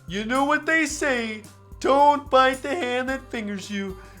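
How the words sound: It is read in a put-on Doki character voice.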